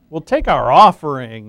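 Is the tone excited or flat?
excited. It is said in a more excited tone. "I should say that more excitedly"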